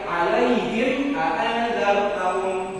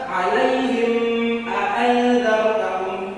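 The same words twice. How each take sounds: First: The m sound is short and clearly released. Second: The m sound is held and drawn out. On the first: The speaker calls it right. "Kalau ini jangan ditahan" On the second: The speaker calls it wrong. "Jangan diragam"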